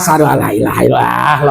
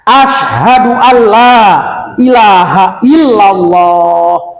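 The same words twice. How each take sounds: First: It is said in a weary, tired voice. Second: It is said in a firm, energetic voice. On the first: The speaker is too weary to recite properly. The speaker calls it wrong. "jangan asyhadu alla ilaha illallah, letih lah" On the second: The recitation is done with proper effort. The speaker calls it right. "Jadi harusnya"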